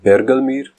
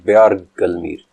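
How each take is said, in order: First: The first syllable has a plain 'e' vowel. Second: The first syllable has a 'ya' glide vowel. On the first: It names one who roars like a bear. "इस लफ्ज़ बरगलमीर के पहले तलफ़्फ़ुज़ के मुताबिक इसका मतलब है रीछ की तरह धाड़ने वाला" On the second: It names one who calls out in the mountains. "दूसरे तलफ़्फ़ुज़ का मतलब है पहाड़ों में आवाज़ देने वाला"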